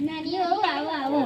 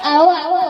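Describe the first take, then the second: First: Hushed, low-key welcome; soft welcome. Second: Cheerful, raised welcome; welcoming call. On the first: Greeting the younger daughter-in-law softly. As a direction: say "આવો, આવો" softly, a touch lower. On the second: Daughter-in-law greeting the elder one with a call. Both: Acted.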